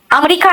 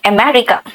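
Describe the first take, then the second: First: अमेरिका said the Hindi way as amrika, squeezed into three quick syllables; wrong version, अमेरिका as amrika. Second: अमेरिका said the English way as a-me-ri-ka, all four syllables clear; corrected version, अमेरिका spoken as America. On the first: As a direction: say अमेरिका like a Hindi speaker, amrika, with the middle vowel dropped. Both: Shown as a demonstration. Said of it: "अमेरिका नहीं".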